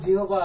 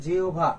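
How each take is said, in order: First: Said in the usual way. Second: জিহ্বা said as "জিওভা", with ও for হ and ভ for ব; pronunciation demo. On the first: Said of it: "এর উচ্চারণটা পরীক্ষা আসতে পারে". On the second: Shown as a demonstration. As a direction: teach জিহ্বা as spoken, "জিও-ভা". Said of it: "তাহলে এর উচ্চারণটা কি হবে বলো তো". (জিহ্বা-র উচ্চারণ "জিওভা")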